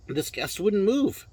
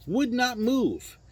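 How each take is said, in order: First: Said in the usual way. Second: "Would not move" slow, higher, every word spaced and hammered; stress on NOT. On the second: Shown as a demonstration. Telling of the stubborn guest, slow emphatic stress on not. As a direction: split "wouldn't" into "Would not" and lean hard on "not".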